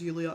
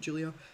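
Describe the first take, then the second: First: The name begins with a Y sound. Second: The name begins with a hard J sound. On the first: This is how it is said in Sweden. "I was referring to it as Yulia and not Julia" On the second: This is the usual way at home. "in Sweden there is no hard J sound"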